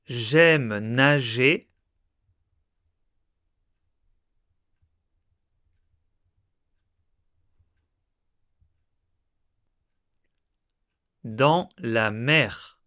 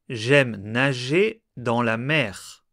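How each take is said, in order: First: It is read slowly with a pause inside. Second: It is read at normal speed without pauses. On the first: "plus lentement en faisant des pauses" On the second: "Une première fois à vitesse normale"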